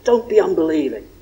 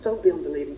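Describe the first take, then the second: First: It is said in an angry, harsh tone. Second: It is said in a gentle, warm tone. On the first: It is a rebuke. The speaker calls it wrong. "Jesus with anger" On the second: It is an encouragement. The speaker calls it right. "with gentleness, with compassion, with encouragement"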